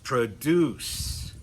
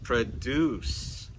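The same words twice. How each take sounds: First: The stress is on the last syllable. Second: The stress is on the last syllable.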